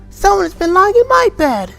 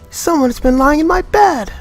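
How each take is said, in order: First: It is said in a small, wee voice. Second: It is said in a middle voice.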